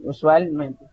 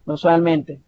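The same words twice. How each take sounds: First: "usualmente" slowed, stressed on both usual and mente; double stress. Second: Said in the usual way. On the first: Shown as a demonstration. Teacher showing students two accents, "usualmente" slowly split into usual-mente. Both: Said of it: "la forma de pronunciarse".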